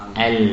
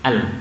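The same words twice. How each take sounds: First: The l sound is held for a moderate time. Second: The l sound is cut off abruptly. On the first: The speaker calls it right. "harusnya al al" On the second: The speaker calls it wrong. "ini jadi syiddah"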